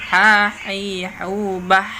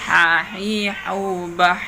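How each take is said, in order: Both takes have the same delivery.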